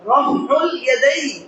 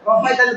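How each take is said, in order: First: The term is said fully as two words. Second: The term is squeezed into one short word. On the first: The speaker calls it right. "অথচ শব্দটা হবে রফউল ইয়াদাইন" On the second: The speaker calls it wrong. "অনেকে ব্যায়াম করবে বলে রফাইদান বলে"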